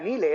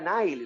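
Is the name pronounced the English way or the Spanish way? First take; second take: Spanish; English. First: The name is pronounced with Spanish sounds. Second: The name is pronounced with English sounds. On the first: The speaker calls it wrong. "que no era Nile" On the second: The speaker calls it right. "era Nile, porque su padre era de Gibraltar y el apellido era en inglés"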